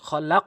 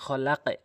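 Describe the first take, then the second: First: The word ends on a bouncing q, no vowel. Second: The word ends with an extra vowel after q. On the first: The speaker calls it right. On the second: The speaker calls it wrong.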